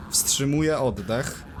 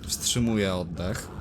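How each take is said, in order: First: Strained, slower while holding breath. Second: Said in the usual way. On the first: Real, not acted. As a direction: squeeze it out holding air in.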